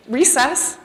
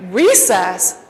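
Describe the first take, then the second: First: Said in the usual way. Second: Recess? echoed in disbelief; disbelieving echo. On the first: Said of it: "he's like". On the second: Retold or imitated. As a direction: throw back Recess? as a stunned question. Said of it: "I'm like".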